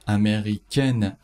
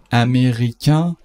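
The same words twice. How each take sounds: First: امریکن ending in a clear "ken"; slow امریکن, falling onto a sounded n; French feminine form. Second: امریکن ending in nasal "eh", no n; slow, louder امریکن with a rising nasal ending; French masculine form. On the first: Teacher shows learners the feminine, امریکن with sounded n. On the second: Teacher shows learners the masculine, امریکن with silent n. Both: Shown as a demonstration.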